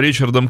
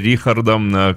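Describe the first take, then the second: First: The name begins with a 'ch' sound. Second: The name begins with a 'kh' sound. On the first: This is how English speakers say the name. "Англоязычные люди называют его Ричардом" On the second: This is how German speakers say the name. "германоязычные — Рихардом"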